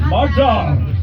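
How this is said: It is said in a Scottish accent.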